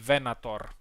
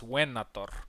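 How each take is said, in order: First: It begins with a V sound. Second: It begins with a W-like sound. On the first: This is the modern Latin pronunciation. "if you pro want to use the modern pronunciation" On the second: This is the ancient Latin pronunciation. "if you're using classical pronunciation, the V is a U"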